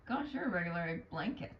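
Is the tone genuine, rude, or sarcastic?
rude. The line is said in a rude tone. "That's more rude"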